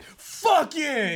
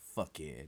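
First: It is said excitedly, with high energy. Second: It is said calmly, without much energy.

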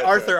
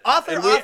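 First: The word is pronounced like the name Arthur. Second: The word is pronounced like the word author. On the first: The speaker calls it wrong. "I always say Arthur" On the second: The speaker calls it right. "I said Author"

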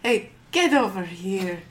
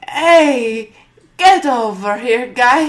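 First: It is said quietly. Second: It is said loudly.

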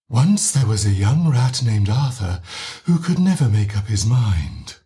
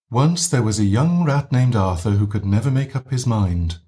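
First: The voice is breathy with a lot of pushed air. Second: The voice is gently breathy, with air leaking out.

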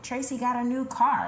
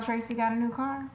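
First: It sounds warm and genuinely pleased. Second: It sounds insinuating and suspicious. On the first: The speaker is sharing good news sincerely. The speaker calls it right. "that's good news. You can say it like that" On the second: The speaker is hinting at something bad behind it. The speaker calls it wrong. "Or it can be"

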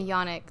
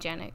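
First: The name begins with a Y sound. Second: The name begins with a J sound. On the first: The speaker calls it right. "they don't say Yannick" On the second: The speaker calls it wrong. "They say Janik"

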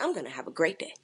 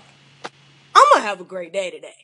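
First: It is said flatly, without emotion. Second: It is said with strong emotion and conviction.

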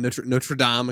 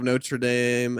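First: It is said with a French-style pronunciation. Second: It is said with an English-style pronunciation. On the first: The speaker calls it right. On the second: The speaker calls it wrong.

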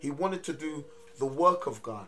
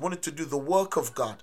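First: It is said at a slower pace. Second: It is said at a faster pace.

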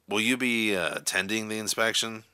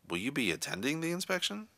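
First: The question is asked in an angry tone. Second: The question is asked in a doubtful tone. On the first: "in an angry, irritated tone of voice" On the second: "an insecure or doubtful tone"

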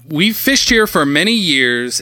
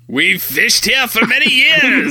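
First: It is spoken in the speaker's ordinary accent. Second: It is spoken in a Scottish-sounding accent.

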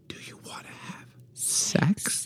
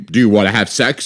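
First: It sounds slow, intimate and seductive. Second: It sounds impatient and exasperated.

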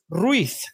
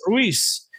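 First: The z sounds like English th, Spain style. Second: The z sounds like s, South American style.

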